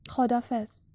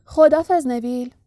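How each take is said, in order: First: Subdued, forlorn farewell; helpless goodbye. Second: Louder, lively farewell; cheerful conductor. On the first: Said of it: "هری با درماندگی از استن و ارن خداحافظی". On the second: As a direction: call goodbye brightly to the departing passenger. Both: A narrator's reading.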